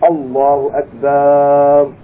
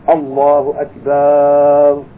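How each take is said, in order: The two takes are said the same way.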